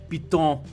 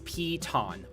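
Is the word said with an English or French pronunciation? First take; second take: French; English. First: The word is said with a French pronunciation. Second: The word is said with an English pronunciation. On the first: "or if you're French" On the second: "It's Piton"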